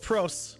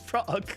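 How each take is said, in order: First: The word ends with an S sound. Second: The word ends with a K sound. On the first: The speaker calls it wrong. "that sounds ridiculous. That sounds completely incorrect" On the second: The speaker calls it right. "you say it with a K"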